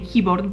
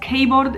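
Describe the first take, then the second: First: The word keeps its English pronunciation. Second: The word is read out as it is spelled. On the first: The speaker calls it right. "you should really say keyboard" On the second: The speaker calls it wrong. "keyboard isn't very you know, correct"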